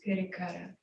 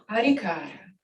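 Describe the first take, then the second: First: The first syllable has an 'i' vowel. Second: The first syllable has an 'a' vowel. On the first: "Sinhalese pronunciations" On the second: "Here's being called parikara"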